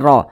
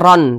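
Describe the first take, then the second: First: The syllable ends in a long vowel, no n. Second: The syllable ends with an n sound. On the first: The speaker calls it right. "tapi ra" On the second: The speaker calls it wrong. "jangan dibaca ron"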